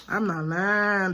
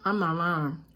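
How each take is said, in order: First: "I'm not lying" said slower and firmer; emphatic, slow. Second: Said in the usual way. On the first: Real, not acted. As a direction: lean on "lying", drawn out. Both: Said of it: "repeats for emphasis".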